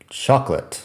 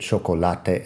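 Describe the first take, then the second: First: A vowel is dropped, giving only two syllables. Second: Every vowel is pronounced, giving three syllables. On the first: "En inglés, chocolate. Son dos sílabas, solo dos" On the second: "la pronunciación de chocolate en español, porque claro, en español pronunciamos cada vocal"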